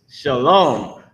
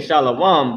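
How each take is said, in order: First: "shalom" as shuh-LOHM, slowly; corrected pronunciation. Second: "shalom" as SHAH-lo-wum, slowly; common mispronunciation. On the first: Teacher correcting the word for students, "shalom" as slow shuh-LOHM. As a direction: say "shalom" with a short shuh and long round LOHM. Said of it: "but it's shalom". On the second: Teacher quoting how they say it, "shalom" as slow SHAH-lo-wum. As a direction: stretch "shalom" with an open shah and a wum ending. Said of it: "they saying shalom". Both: Shown as a demonstration.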